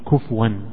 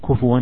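First: The f has no vowel after it. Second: The f is followed by a short u vowel. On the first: The speaker calls it wrong. "كما ينطق به البعض يقول كفوا" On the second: The speaker calls it right. "هي بالضم"

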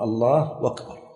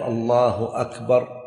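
First: The second word begins with a w sound. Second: The second word begins with a glottal stop. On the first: "بعض الناس لا يحقق الهمزة" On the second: "لا يقول الله أكبر"

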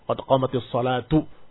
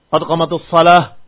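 First: The last word ends with a u vowel. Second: The last word ends without a final vowel. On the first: "Dirafakan karena dia pelaku dari qomat" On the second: "Atau sakin taslam. Atau matikan selamat"

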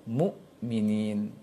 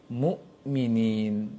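Both takes have the same delivery.

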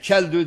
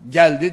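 First: The word starts with 'ch' and ends in 'ü'. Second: The word starts with 'g' and ends in 'i'. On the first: "Çeldü diyecek" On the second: "geldi diyemez"

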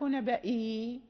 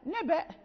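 First: The word ends with a long 'ee' vowel. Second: The word ends abruptly on a glottal stop. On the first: The speaker calls it wrong. "لا نقف نبائي" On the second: The speaker calls it right. "نقف نبأ"

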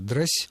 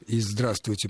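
First: The word is squeezed into one short syllable. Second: The word is pronounced with all its syllables.

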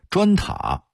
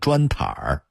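First: It is said without an added r-colored ending. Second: It is said with an added r-colored ending.

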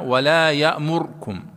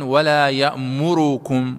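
First: The vowel after the r is quick and faint. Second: The vowel after the r is full length. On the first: "باختلاس الضم" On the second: "فلا يقرؤون ولا يأمركم"

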